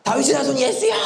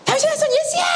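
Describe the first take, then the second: First: Restrained high-pitched cry for help; acted yell, not at full force; blind beggar's cry. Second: Very high, straining acted scream; piercingly high yell, fully acted; realistic beggar's shout. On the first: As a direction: imitate a beggar calling out, holding back for a sore throat. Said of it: "뭐라고 지릅니까?". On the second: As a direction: scream out for help like a desperate blind beggar. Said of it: "좀 더 리얼하게 좀 하고 싶은데".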